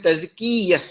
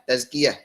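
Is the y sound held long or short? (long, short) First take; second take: long; short. First: The y sound is doubled and held long. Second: The y sound is short and single. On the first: The speaker calls it wrong. "Bukan tazkiyah. Tak ada eh" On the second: The speaker calls it right. "Contohnya zakka tazkiyah"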